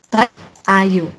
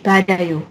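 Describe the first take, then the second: First: The final consonant is split from the next vowel. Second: The final consonant links into the next vowel. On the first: The speaker calls it wrong. "dia nggak mungkin bacanya" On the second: The speaker calls it right. "Jadi dia digabung jadi badayo"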